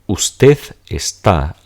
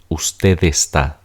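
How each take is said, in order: First: There is a pause between the two words. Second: The two words blend together without a pause. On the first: "I'm making a pause" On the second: "if you don't pause, these are going to blend together"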